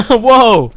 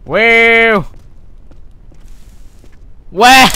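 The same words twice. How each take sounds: First: Surprised whoa. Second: Longer, higher held whoa; surprised whoa, retry. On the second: Retrying his whoa for the viewers, held high. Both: Shown as a demonstration. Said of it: "Let me try that again".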